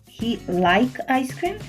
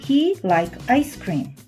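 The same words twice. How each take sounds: First: The voice rises at the end, a question. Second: The voice falls at the end, a statement.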